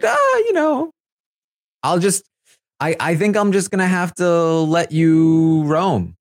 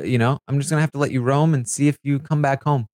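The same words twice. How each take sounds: First: Higher, slow, drawn-out mock Jared voice; imitating Jared. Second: Said in the usual way. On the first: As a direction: play Jared stretching the words out slowly and up high. Retelling Jared talking to Blue.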